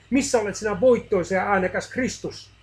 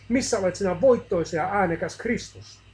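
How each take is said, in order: First: A desperate shout to an absent Christ; anguished cry. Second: A desperate shout, again unanswered; anguished cry. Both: A narrator's reading. Man cries out to silent Christ, anguished loud shout. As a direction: cry out louder and higher in distress. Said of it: "Hän parkaisi hädissään".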